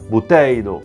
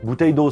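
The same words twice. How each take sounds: First: It is said with an exaggerated Italian accent. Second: It is said with a plain French accent.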